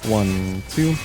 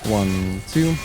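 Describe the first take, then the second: The two takes are said the same way.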